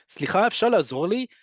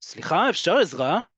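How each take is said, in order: First: Polite ask, pitched higher and lighter; nicely asked. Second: Firm, insistent ask for help; a little forceful. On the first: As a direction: ask gently, with a friendly lift. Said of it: "If you say it nicely". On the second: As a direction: press for attention when no one is looking. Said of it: "can sound a little ... more forceful". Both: Shown as a demonstration.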